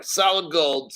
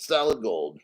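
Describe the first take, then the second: First: Said in the usual way. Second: Half to himself, in awe of the weight; low admiring murmur. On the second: Real, not acted. Admiring a heavy gold coin.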